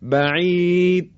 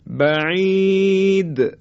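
First: The final d is barely heard, without any bounce. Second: The final d is released with a clear bounce. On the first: The speaker calls it wrong. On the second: The speaker calls it right.

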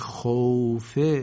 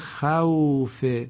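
First: The vowel is a rounded oo without open a. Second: The vowel is an open a gliding into w. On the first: "خوف شاید خونده بشه" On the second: "کلمه خوف"

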